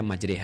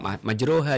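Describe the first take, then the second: First: The vowel after the r sounds like 'e'. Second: The vowel after the r sounds like 'a'. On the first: "dibaca majreha" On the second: "masih majroha"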